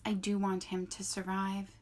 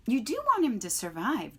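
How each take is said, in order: First: Even, lightly voiced robot answer. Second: A bit louder pressing goose. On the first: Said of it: "said the robot". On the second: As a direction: press the robot with a firm question. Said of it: "said the goose". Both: A narrator's reading.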